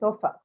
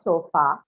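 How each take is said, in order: First: The final vowel is a weak schwa. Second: The final vowel is a full, clear vowel. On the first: The speaker calls it right. "the last vowel you hear that is the uh, schwa sound" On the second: The speaker calls it wrong. "it's not sofa"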